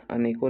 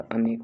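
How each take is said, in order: First: "अनेकों" with a final nasal ओं; wrong form shown. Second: "अनेक" ending on a plain k; correct form shown. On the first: Teacher showing the mistake to avoid, अनेकों with an added ओं. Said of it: "नहीं होता". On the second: Teacher correcting students' word, अनेक ending cleanly on क. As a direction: stop "अनेक" at the क, no -on. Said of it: "होता है". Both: Shown as a demonstration.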